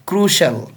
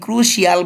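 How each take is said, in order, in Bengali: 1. শব্দটি দুই দলে উচ্চারিত হয়। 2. শব্দটি তিন দলে উচ্চারিত হয়। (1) "এটা ক্রুশিয়াল নয়, ক্রুশাল" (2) "আবার এটাকে আপনি ক্রুশিয়াল বলবেন না"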